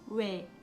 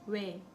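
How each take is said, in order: Both takes have the same delivery.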